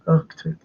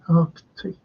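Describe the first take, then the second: First: The first C sound is left out. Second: The first C sound is clearly pronounced. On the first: The speaker calls it wrong. "just left the C out" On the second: The speaker calls it right. "You gotta pronounce the C"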